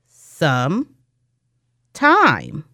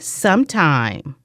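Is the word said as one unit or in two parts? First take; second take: two parts; one unit. First: The word has a break in the middle. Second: The word flows smoothly without any break. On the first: "We segment it into some time" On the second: "Say sometime"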